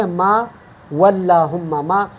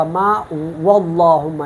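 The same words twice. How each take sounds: First: "واللہم" with an ordinary light L; thin lam. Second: "واللہم" with a heavy, dark L; wrongly full lam. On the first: Teacher gives the correct example, thin L in "واللہم". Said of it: "اس کو ہم باریک پڑھیں گے". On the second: Teacher shows the mistake, heavy L in "واللہم". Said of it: "اس طرح نہیں پڑھوں گا". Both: Shown as a demonstration.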